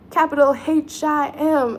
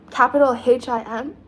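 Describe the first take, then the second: First: "Capital H I M" slowly spelled, every letter stressed; spelled-out emphasis. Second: Said in the usual way. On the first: Shown as a demonstration. Quoting [name] to chat, spelling "H I M" slowly. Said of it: "as [name] said".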